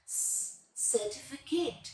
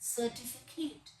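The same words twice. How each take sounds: First: "स" set apart, then "certificate" slow; syllable-split s demo. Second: Said in the usual way. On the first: Shown as a demonstration. Teacher showing pupils: slow "स", then "certificate". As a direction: sound out "स" then "certificate" carefully. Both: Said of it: "इसको हमने syllabus में कैसे divide करना है".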